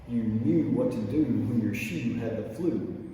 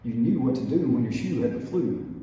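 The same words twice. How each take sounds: First: It is said at a slower pace. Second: It is said at a faster pace.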